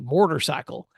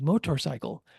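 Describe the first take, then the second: First: It is said in a Tennessee accent, extra R. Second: It is said in a standard accent.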